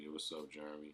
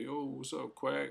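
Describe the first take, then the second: First: Said in the usual way. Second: Imitating Jeremy's greeting, much higher and louder; voicing Jeremy. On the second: Narrator voicing Jeremy greeting him, high and loud. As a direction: pop it up high and loud like an excited friend.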